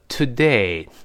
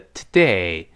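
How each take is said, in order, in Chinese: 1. 第一个元音饱满清晰。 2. 第一个元音弱化，读得轻。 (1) "如果我们特别强调的话叫today" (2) "如果我们在生活中一带而过呢，它另外一个发音叫today"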